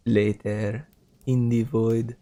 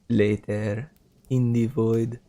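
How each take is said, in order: First: It is said in an imitated announcer voice. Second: It is said in an imitated announcer voice.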